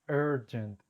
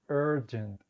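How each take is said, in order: The two takes are said the same way.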